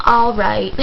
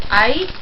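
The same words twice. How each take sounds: First: "All right" said as two full words, falling; stiff, proper "All right" next to auntie's slang. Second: "aight" clipped to one syllable with a rising tone; auntie's slangy "aight?" rising. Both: Retold or imitated. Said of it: "I can't do that aight thing".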